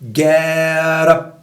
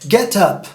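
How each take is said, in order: First: The t is a quick tap, like d. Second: The t is released as a clear t. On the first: This is how American speakers say it. "Mais à l'américaine, le T souvent devient une sorte de D" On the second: This is how British speakers say it. "Si tu parles à la britannique, ça va faire get up"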